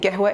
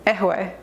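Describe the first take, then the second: First: The word begins with a q sound. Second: The word begins with a vowel, no q sound. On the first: "if you're saying قهوة" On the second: "they don't pronounce the qaf"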